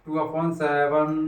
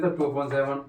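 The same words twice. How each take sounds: First: Very slow, word by word, टू upon seven spaced out; slow dictation. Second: Said in the usual way. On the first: Shown as a demonstration. Teacher dictating टू upon seven slowly to students. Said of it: "कितना आएगा?". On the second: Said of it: "इतने days होते हैं".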